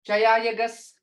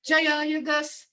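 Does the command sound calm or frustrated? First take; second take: calm; frustrated. First: The command sounds calm, not frustrated. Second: The command sounds a little frustrated.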